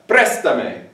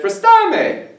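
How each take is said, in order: First: "Préstame" stressed on PRÉS, falling after it; accent on first syllable. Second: "prestame" with the stress moved off the first syllable onto STA; missing accent. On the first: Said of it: "Okay, no". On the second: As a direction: say "prestame" as pres-TA-me, high and drawn out. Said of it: "If I don't put that accent mark". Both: Shown as a demonstration.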